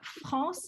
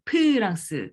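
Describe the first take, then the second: First: The word begins with an f sound. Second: The word begins with a p sound. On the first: "c'est pas France" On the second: "mais c'est Prance"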